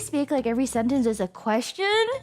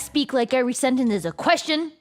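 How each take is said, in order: First: The voice rises at the end like a question. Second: The voice falls at the end like a statement. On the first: The speaker sounds unsure. The speaker calls it wrong. "normally I'd be like" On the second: The speaker sounds assured. The speaker calls it right. "But now I'll say"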